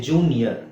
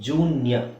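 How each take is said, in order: The two takes are said the same way.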